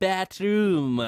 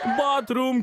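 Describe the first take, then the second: First: The first vowel is a flatter 'ai' sound. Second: The first vowel is an open 'ah' sound. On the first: The speaker calls it wrong. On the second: The speaker calls it right.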